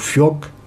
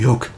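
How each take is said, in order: First: The word begins with an F sound. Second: The word begins with a breathy H sound. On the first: This is how it is said in the Lot. "ce qu'on pense F dans le Lot" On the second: This is how it is said in Gascony. "avec le H aspiré"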